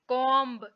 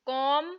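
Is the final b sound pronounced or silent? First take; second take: pronounced; silent. First: A b sound is heard at the end. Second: No b sound is heard at the end. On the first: The speaker calls it wrong. "हम ऐसे नहीं पढ़ेंगे" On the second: The speaker calls it right. "बल्कि"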